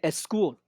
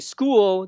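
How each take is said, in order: First: An extra eh vowel comes before the s. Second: The word begins directly with the s sound.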